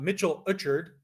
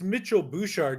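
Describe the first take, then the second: First: The surname starts with a vowel, no B. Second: The surname starts with a B sound. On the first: The speaker calls it wrong. "not Mitchell Uchard" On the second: The speaker calls it right. "It's Mitchell Bouchard"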